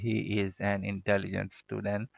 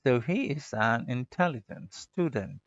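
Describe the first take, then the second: First: Intelligent student said in the usual local way, every sound full; the ordinary way learners say it; plain local way. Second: Slow, stu in student stretched, dent clipped short; English-style pronunciation. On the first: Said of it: "नहीं तो जो आपका तरीका है". (अपने आम तरीके से, हर आवाज़ पूरी) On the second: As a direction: lengthen the first sound, swallow the ending. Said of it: "stu को मैंने लंबा किया है, dent को मैंने छोटा कर दिया". (student में stu लंबा और dent छोटा, धीमे अंदाज़ में) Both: Shown as a demonstration.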